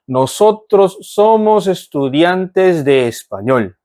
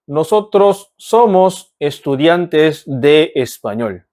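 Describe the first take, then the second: First: The words flow together in a natural way. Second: Each word is articulated carefully and separately. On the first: "조금만 더 자연스럽게 읽어보겠습니다" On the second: "한 번 더 또박또박"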